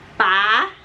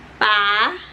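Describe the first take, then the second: The two takes are said the same way.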